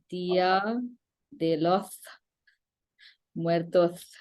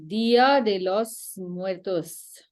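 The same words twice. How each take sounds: First: The S sounds are said with a lisp. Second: The S sounds are said plainly, without a lisp.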